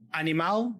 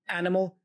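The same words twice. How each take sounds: First: It is pronounced the Portuguese way. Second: It is pronounced the English way. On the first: "that's Portuguese" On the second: "that's English"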